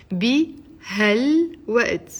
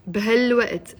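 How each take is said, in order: First: بهالوقت drawn out in separate pieces, "bi-hal-wa't"; slow syllable-by-syllable. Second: Said in the usual way. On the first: Shown as a demonstration. Teacher repeats phrase broken into syllables.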